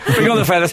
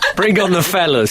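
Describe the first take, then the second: First: It is said in an ordinary voice. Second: It is said in a fruity, theatrical voice.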